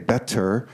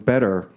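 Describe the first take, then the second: First: The middle consonant is a crisp T sound. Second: The middle consonant is a quick, soft tap. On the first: "It's not really a T. We don't say better" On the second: "It's some intermediate sound"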